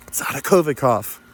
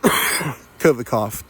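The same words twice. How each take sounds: First: Said in the usual way. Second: Covid cough spoken slowly through a cough. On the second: Pretend.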